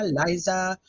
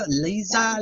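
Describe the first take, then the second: First: "Liza" said as LYE-za; pronounced Lye-za. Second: "Liza" said as LEE-za; pronounced Lee-za. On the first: Host correcting a viewer's name, "Liza" as LYE-za. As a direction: say "Liza" with a long i, like eye. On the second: Host greeting a viewer, "Liza" as LEE-za. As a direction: say "Liza" with an ee in the first syllable. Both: Real, not acted. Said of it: "I'm gonna saying everything wrong now".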